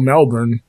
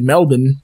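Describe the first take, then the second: First: Said with a full American 'born' ending. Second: Said with a reduced Australian 'bn' ending. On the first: "being from Florida because there is a city called Melbourne" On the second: "you hear Australians say Melbourne"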